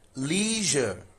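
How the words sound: It is said with an American accent. "In U S English, this is leisure"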